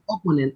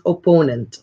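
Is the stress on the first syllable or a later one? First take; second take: first syllable; later syllable. First: The stress is on the first syllable. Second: The stress is not on the first syllable. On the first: The speaker calls it wrong. "you put that accent at the beginning" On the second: The speaker calls it right. "but this is opponent"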